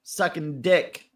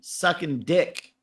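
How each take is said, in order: First: The stress is on the word dick. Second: The stress is on the word dick.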